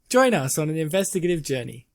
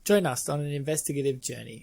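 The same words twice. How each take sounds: First: It is said with more enthusiasm. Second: It is said with little enthusiasm.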